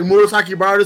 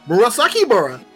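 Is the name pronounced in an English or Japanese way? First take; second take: Japanese; English. First: The name is said with Japanese-style pronunciation. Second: The name is said with English-style pronunciation. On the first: This is the original name as intended. The speaker calls it right. "instead of like say like" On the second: This is how the dub mangles the name. The speaker calls it wrong. "they'll just like mispronounce things purposefully"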